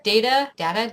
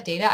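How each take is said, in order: First: "data" first with long a, then with short a; "data" said day-ta, then da-ta; two ways to say data. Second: "data" said day-ta; data with long a. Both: Shown as a demonstration. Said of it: "I always say data".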